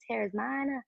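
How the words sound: It is said in an Essex accent.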